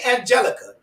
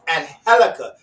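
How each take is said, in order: First: The G is pronounced like a J sound. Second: The G is pronounced like an H sound. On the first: The speaker calls it wrong. "Don't say Angelica" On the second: The speaker calls it right. "You have to pronounce the J with an H"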